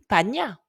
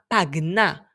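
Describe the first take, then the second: First: The middle sound is a single palatal ny. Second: A hard g is followed by a separate n. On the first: The speaker calls it wrong. "nous l'aurions lu pagna" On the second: The speaker calls it right. "qui s'écrit P A G N A"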